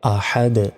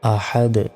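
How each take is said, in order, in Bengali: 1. শব্দটি খালি 'd' ধ্বনি দিয়ে শেষ হয়। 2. শব্দটি খালি 'd' ধ্বনি দিয়ে শেষ হয়।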